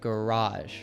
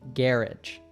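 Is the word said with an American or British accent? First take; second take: American; British. First: It is said with an American accent. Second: It is said with a British accent. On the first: "an American, like myself, would say garage" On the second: "a British person would say garage"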